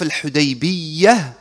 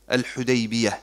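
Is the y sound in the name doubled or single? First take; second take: doubled; single. First: The y sound is doubled and held longer. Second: The y sound is single and short. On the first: The speaker calls it wrong. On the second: The speaker calls it right.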